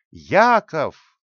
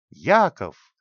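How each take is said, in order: First: The second call, louder and higher. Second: A loud call through the house. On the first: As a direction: shout the name again, harder. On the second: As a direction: call the boy's name, louder. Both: A narrator's reading. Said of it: "закричала так, что её голос раздавался".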